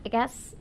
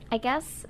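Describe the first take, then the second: No difference in how they are said.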